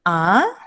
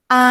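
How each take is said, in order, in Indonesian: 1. Nada naik dari sedang ke tinggi. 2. Nada tetap datar dan agak tinggi. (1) "nada kedua itu dilafalkan naik" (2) "dilafalkan dengan datar dan agak tinggi"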